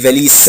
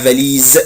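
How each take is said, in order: First: The final consonant is a hissing s sound. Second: The final consonant is a buzzing z sound. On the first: The speaker calls it wrong. "ما عاد يقول لي فاليس" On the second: The speaker calls it right. "لا اسمها فاليز ز ز"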